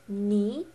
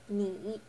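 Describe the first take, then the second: First: The syllable has a rising second tone. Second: The syllable has a dipping third tone. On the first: "go on the second tone, which is ni" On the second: "instead of ni"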